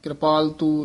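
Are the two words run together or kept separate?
run together. The two words are run together. The speaker calls it wrong. "ਇਉਂ ਨਹੀਂ ਕਹਿਣਾ"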